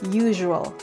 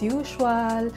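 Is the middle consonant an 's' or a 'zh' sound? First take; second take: zh; s. First: The middle consonant sounds like zh. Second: The middle consonant sounds like a plain s. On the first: The speaker calls it right. "Yung S gagawin nating parang letter Z. Z and then letter H" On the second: The speaker calls it wrong. "But it's not correct"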